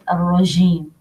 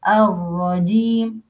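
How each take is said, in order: First: The J sound is released with audible breath. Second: The J sound is voiced with no escaping breath. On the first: The speaker calls it wrong. "Not الرجيم" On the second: The speaker calls it right. "no breath in letter الجيم"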